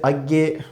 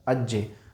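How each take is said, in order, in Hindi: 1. इस संयुक्त ध्वनि का उच्चारण 'g' ध्वनि से होता है। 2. इस संयुक्त ध्वनि का उच्चारण 'j' ध्वनि से होता है। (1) "वैसे अज्ञे बोलते हैं ... उसमें हमने इसको गे बोला है" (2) "बोलिएगा अज्जे"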